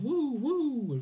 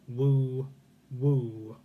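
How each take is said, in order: First: It sounds cheerful and lively. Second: It sounds strict and stern. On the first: The speaker calls it wrong. "really upbeat" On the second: The speaker calls it right. "I read it as a strict Victorian"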